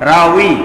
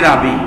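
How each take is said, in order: First: The middle consonant is a w sound. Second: The middle consonant is a b sound. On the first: This is the original Arabic form. "রাউই আসলে রা ওয়াও ইয়া" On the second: This is the common local form. "কিন্তু আমরা বলি রাবি"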